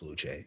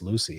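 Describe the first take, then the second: First: The name ends in a 'chay' sound. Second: The name ends in an 'ee' sound. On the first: This is how it is said in Italy. "If I were in Italy, I would say it's Luce" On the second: This is how it is said in America. "So it's Lucy in America"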